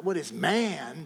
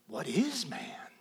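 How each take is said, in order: First: "man" stretched out as the key word; stress on MAN. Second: Softer, slow, with "is" stretched out; stress on IS. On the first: Preacher repeating the reading he rejects, stress on "man". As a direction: put the weight on "man", not "is". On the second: Preacher giving his preferred psalm reading, soft stress on "is". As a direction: lean long on "is", let "man" fall away. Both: Shown as a demonstration. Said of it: "emphasis on a different syllable".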